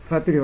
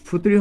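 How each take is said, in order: First: It is said as three syllables, fah-too-ree. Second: It is said as three syllables, foo-too-ree. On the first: "এটার উচ্চারণ ফুতুরি হবে না ফাতুরি হবে?" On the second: "এটার উচ্চারণ ফুতুরি হবে না ফাতুরি হবে?"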